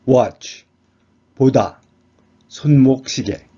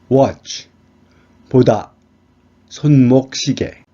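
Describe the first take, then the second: Both takes have the same delivery.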